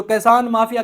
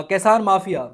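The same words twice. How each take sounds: First: Said in the usual way. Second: کسان mafia spelled out slowly, each word weighted; pointed term. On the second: Shown as a demonstration. Commentator slowly mocks the official term for farmers, deliberate stress. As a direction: lean on کسان mafia slowly like a quoted label. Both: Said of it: "یہ لفظ کچھ دن پہلے بولا گیا".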